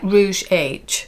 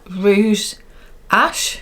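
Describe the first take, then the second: First: The final letter is said as English 'aitch'. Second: The final letter is said as French 'ash'. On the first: "It's like Rouge H" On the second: "I think you pronounce it"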